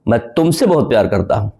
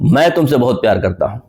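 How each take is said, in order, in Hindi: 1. शब्द तुमसे पर ज़ोर है। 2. शब्द मैं पर ज़ोर है। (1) "तुमसे पे मैंने जोड़ दिया" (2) "इसका मतलब मैं मैं इंपॉर्टेंट हूं, आई।"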